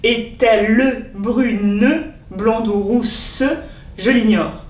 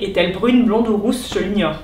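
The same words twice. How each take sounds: First: The final e sounds are pronounced as syllables. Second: Most final e sounds are dropped entirely. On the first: It is the metrical verse reading that makes the alexandrine. "doivent se prononcer" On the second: It is how it would be said in everyday speech. "dans le langage courant, on éliderait la plupart de ces E"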